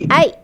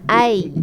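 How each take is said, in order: First: The sound ends with a sudden glottal catch. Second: The sound ends in a soft, gliding release. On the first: The speaker calls it wrong. "Dia tak boleh I. Ha, macam kita marah" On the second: The speaker calls it right. "dia kena I"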